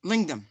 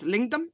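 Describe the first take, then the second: First: Said in the usual way. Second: Put-on Indian accent, said with a lift; a light Indian accent on the word. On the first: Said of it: "Thank you". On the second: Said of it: "I hear a very Indian voice goes".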